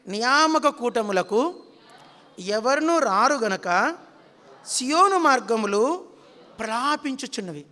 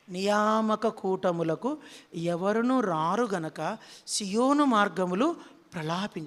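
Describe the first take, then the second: First: Slow and loud, every word drawn out for the congregation to repeat; slow loud recitation. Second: Slow and hushed, drawn out like a lament; mournful lament. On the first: Shown as a demonstration. Preacher leading the congregation to repeat, slow loud recitation. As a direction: intone it slowly and firmly. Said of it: "అందరూ పలకండి". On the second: Acted. Preacher mourning empty prayer meetings, slow mournful lament. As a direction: grieve over each word slowly. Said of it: "ఎవరు ఏడ్చేది?".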